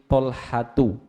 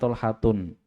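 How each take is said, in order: First: The name ends in a plain u vowel. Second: The name ends in u followed by n. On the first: The speaker calls it right. "seperti Tolhatu" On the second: The speaker calls it wrong. "jangan Tolhatun"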